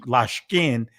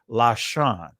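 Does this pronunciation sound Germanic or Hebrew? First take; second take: Germanic; Hebrew. First: It is said with a Germanic, Yiddish-style pronunciation. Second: It is said with a Hebrew, non-Germanic pronunciation. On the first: "that's Germanic pronunciation" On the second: "that is supposed to be Lashan"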